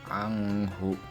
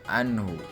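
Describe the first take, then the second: First: The n sound is blurred, not clear. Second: The n sound is pronounced clearly. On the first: The speaker calls it wrong. "tidak boleh dibaca anghu" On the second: The speaker calls it right. "dibaca jelas anhu"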